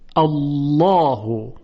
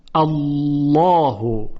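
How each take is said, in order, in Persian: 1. ل سنگین و غلیظ است. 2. ل سنگین و غلیظ است.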